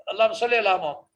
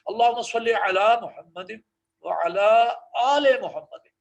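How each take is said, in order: First: اللہم صلی علی محمد gabbled quickly; rushed recitation. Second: Slow, with وعلی and آل Muhammad each said apart; careful recitation. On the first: Teacher showing how not to recite, rushed. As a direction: rattle it off too fast. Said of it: "اس طرح نہیں پڑھنا تیزی سے". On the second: Teacher giving the corrected slow recitation. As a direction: give وعلی and آل their own sound, slowly. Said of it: "علیحدہ آواز اس کی نکالیں گے". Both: Shown as a demonstration.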